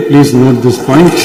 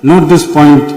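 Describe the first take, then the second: First: "point" drawn out very slowly with a rising finish; "please note this point" said word by word, very slowly, "point" rising; very slow emphasis. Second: Said in the usual way. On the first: Shown as a demonstration. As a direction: spell out each word very slowly to the Speaker. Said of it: "மாண்புமிகு பேரவைத் தலைவர் அவர்களே".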